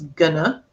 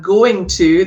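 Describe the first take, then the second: First: The words merge into one word with a schwa. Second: Both words are said fully and separately.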